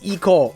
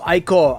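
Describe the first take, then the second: First: The name begins with an 'ee' sound. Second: The name begins with an 'eye' sound. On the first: The speaker calls it wrong. "sometimes I just slip up and just call it the E-Core" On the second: The speaker calls it right. "I think it's pronounced as the I-Core"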